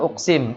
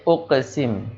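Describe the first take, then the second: First: The middle consonant is a plain k sound. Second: The middle consonant is a deep q with echo. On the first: The speaker calls it wrong. "Jangan uksim" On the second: The speaker calls it right. "tapi uqsim"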